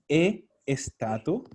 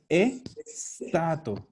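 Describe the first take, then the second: First: An extra e sound comes before the s. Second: The word starts directly with the s sound. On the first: The speaker calls it wrong. "no es E estato" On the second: The speaker calls it right. "Partimos con la S"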